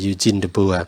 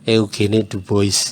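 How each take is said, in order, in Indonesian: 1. Nama itu diucapkan sesuai pengucapan aslinya. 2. Nama itu dibaca dengan cara lokal yang biasa dipakai di sekolah. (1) "pengucapannya yang benar" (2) "waktu S D kita sering menyebutnya"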